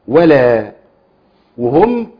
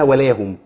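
First: The two words are said separately with a break. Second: The two words are run together as one word. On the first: The speaker calls it wrong. "احنا خلينا ايه ولا وهم" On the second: The speaker calls it right. "كلمة واحدة اسمها ولاهم"

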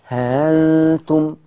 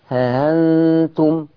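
No difference in how they are said.

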